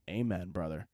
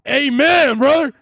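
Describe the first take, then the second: First: Very soft, low amen; low, barely-there congregant's amen; hushed amen. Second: Loud, high-pitched hallelujah-style amen; high, hammed-up congregation shout; mock church shout. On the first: Pretend. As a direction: murmur it low, almost to yourself. Hushed then shouted amen, for effect. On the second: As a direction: belt it out like a revival preacher. Mock church amen, repeated loudly.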